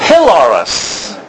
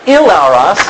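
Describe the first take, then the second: First: "hilaros" opened with a breathed h; h sound first. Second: "ilaros" with no h at the start; no h sound. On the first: Teacher correcting the form for students, "hilaros" with a clear h. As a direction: slowly sound the h at the start of "hilaros". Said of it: "Notice the breathing mark on the front". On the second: Teacher showing students the wrong form, "ilaros" without its h. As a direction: begin "ilaros" straight on the vowel. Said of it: "you can start to see it's not ilaros". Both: Shown as a demonstration.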